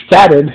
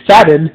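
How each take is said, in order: Both takes have the same delivery.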